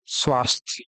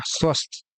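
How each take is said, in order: First: स्वास्थ्य said softly with long आ; careful demonstration. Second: स्वस्थ said softly with short स्व; careful demonstration. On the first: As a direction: model स्वास्थ्य quietly and clearly. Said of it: "स्वास्थ्य यहाँ पर सही है". (स्वास्थ्य धीमे साफ़ उच्चारण) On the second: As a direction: model स्वस्थ quietly, short vowel. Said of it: "स्वस्थ ऐसे लिखाएगा". (स्वस्थ छोटे स्वर के साथ) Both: Shown as a demonstration.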